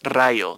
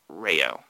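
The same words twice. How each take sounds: First: It is said with a native Spanish pronunciation. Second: It is said with an English-speaker's pronunciation. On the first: "It's Rayo de Luz" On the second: "a non-Spanish speaker's pronunciation of the word"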